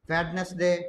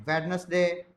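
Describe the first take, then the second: Both takes have the same delivery.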